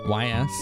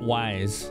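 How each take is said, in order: First: The name is spelled out as two letters. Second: The name sounds like the word wise. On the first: "Like you said the two letters separately?" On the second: "I called it Wise as a kid"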